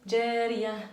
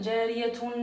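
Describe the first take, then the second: First: The word ends softly without any t sound. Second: The word ends with a pronounced t and -un. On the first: The speaker calls it right. "on facilite la prononciation et on dit jariya" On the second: The speaker calls it wrong. "on dit pas jariyatun"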